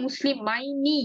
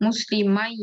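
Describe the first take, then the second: First: মুসলিমাইনি slowly, ending "-maini"; full form with noon. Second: মুসলিমাই ending on a held "mai"; noon dropped, ya kept. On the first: Teacher reads the form before noon goes, noon pronounced. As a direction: sound the n clearly in মুসলিমাইনি. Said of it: "নুন চলে যাবে". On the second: Teacher shows ya remains, held ai ending. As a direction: say মুসলিমাই with the ai glide and no n. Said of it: "ইয়াটা থেকে যাবে". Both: Shown as a demonstration.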